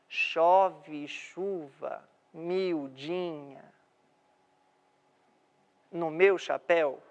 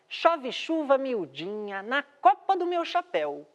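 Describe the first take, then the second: First: It is read limply, without a marked beat. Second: It is read with a clear, lively rhythm.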